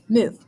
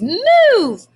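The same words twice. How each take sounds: First: It is said flat and without energy. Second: It is said with lively, excited energy. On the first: It ends with a period. The speaker calls it wrong. "Kind of boring" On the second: It ends with an exclamation mark. The speaker calls it right. "I read it like that"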